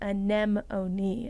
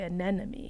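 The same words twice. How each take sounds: First: The n and m sounds come in normal order. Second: The m and second n sounds are swapped. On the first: The speaker calls it right. "It's anemone" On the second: The speaker calls it wrong. "I always say anemone. I switched the the M and the second N"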